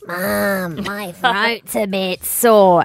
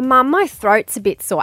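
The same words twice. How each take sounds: First: It is said in a croaky, put-on voice. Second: It is said in a normal, clear voice.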